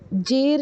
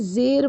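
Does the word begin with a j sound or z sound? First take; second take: j sound; z sound. First: The word begins with a j sound. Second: The word begins with a z sound. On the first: The speaker calls it wrong. "जेर नहीं बोलेंगे" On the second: The speaker calls it right. "ज़ेर बोलेंगे जेड से"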